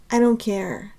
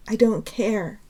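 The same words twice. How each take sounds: The two takes are said the same way.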